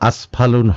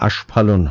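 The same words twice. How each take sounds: First: The middle consonant is an 's' sound. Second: The middle consonant is an 'sh' sound. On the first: The speaker calls it wrong. "আস্ফালন হয় না" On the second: The speaker calls it right. "আস্ফালন হয়"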